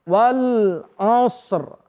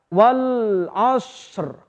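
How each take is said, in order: No difference in how they are said.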